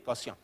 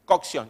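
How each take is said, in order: First: "cocción" softly, without the k sound; mispronounced cocción. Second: "cocción" with the k sound before the s; correct cocción. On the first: Juancito's mistake repeated, "cocción" as "cosión". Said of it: "¿Y yo qué dije?". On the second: Friend corrects Juancito, "cocción" as "cok-sión". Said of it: "¿Cómo se dice?". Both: Retold or imitated.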